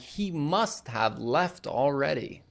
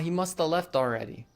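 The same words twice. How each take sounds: First: Must have is said fully, both words clear. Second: Must have is blended into musta. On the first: "Instead of saying" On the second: "must have becomes musta. / we'll say"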